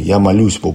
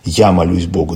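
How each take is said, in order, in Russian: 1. Ударение падает на слово «молюсь». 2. Ударение падает на слово «я». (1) "но акцент вот на молитве" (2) "это уже «я»"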